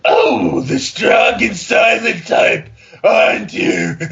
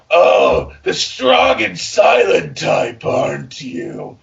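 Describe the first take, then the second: First: Loud, slow, drawn-out flirt; hammed-up seduction. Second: Hammed-up seduction. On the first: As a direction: belt the line like a bad romance. Reading seductive fanfic dialogue again. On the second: Reading seductive fanfic dialogue.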